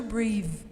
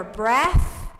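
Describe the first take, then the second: First: "breathe" with long ee and voiced th; verb pronunciation. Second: "breath" with short e and voiceless th; noun pronunciation. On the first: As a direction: model "breathe" as the verb, buzzing th at the end. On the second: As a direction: model "breath" slowly and firmly, short e, hissed th. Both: Shown as a demonstration. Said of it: "but the pronunciation changes".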